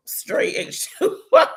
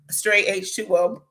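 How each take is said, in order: First: Very high, drawn-out, louder repeat; playful high squeal. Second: Said in the usual way. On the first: Retold or imitated. Repeating her answer to the cashier for laughs, playful high squeal. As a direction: squeal it slowly, on the edge of laughter.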